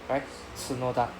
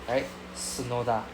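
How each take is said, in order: The two takes are said the same way.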